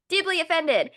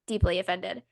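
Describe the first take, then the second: First: DEEPLY OFFENDED pitched high and punched louder; emphatic outrage. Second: Said in the usual way. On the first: Real, not acted. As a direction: repeat "Deeply offended" high, with indignant force. Repeats phrase with rising outrage.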